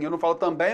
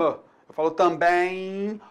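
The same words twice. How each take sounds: First: Também with the M sounded as a full consonant, tam-bem; wrong way. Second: Também said slowly with a nasal vowel gliding into an I, tãbẽi; slow model pronunciation of também; right way. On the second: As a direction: stretch também out as tã-bẽi, no separate M. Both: Shown as a demonstration.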